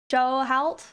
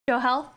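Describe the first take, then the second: First: The surname sounds like the word halt. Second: The surname sounds like the word health. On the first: The speaker calls it wrong. "I don't know how to say your name yet" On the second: The speaker calls it right. "it's pronounced the same as health"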